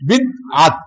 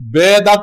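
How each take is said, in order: First: It starts with 'bi' and has a break. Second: It starts with 'be' and has no break. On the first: The speaker calls it right. "সহি করে বলতে হবে" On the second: The speaker calls it wrong. "বেদাত না, বেদাত মানে তার দাঁত নেই"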